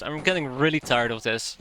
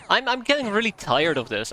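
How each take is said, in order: First: Said in the usual way. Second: "getting" hit, higher and louder, exasperated; fed-up outburst. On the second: Real, not acted. To viewers after losing Chuck, exasperated outburst. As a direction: blurt it out, fed up.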